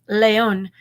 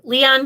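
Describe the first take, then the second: First: The name is pronounced the French way. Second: The name is pronounced the English way. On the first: "I was saying the French version" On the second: "I'm just kidding"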